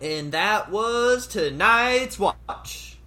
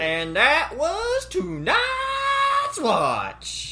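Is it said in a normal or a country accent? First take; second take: normal; country. First: It is said in his normal accent. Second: It is said in a put-on country accent.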